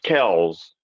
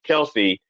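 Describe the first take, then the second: First: The name ends with an s sound. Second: The name ends with an ee sound. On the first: The speaker calls it right. "It's actually pronounced Kells" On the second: The speaker calls it wrong. "technically not pronounced Kelsey"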